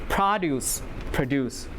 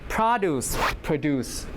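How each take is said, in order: The two takes are said the same way.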